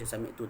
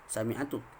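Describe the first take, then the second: First: The verb is said without a vowel before 'tu'. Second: The verb is said with a vowel before 'tu'. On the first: The speaker calls it right. "yang tu kita baca sami'tu" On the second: The speaker calls it wrong. "tak baca sami'atu"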